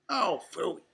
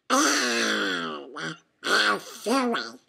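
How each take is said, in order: First: Said in the usual way. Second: Spluttering duck quack; Donald. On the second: A narrator's reading. Duck turning round on his shadow, spluttered quack. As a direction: quack it out, garbled and exasperated. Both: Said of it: "Donald quacked as he turned around".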